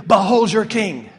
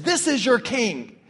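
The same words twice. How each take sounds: First: Loud, sincere "Behold your king"; preacher proclaims Christ as king to the congregation, loud and earnest; earnest proclamation. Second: Sarcastic. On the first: Real, not acted. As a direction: declare it to the brothers and sisters. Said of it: "I say to you". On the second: Acted. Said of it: "He meant it sarcastically".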